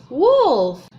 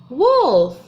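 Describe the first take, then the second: No difference in how they are said.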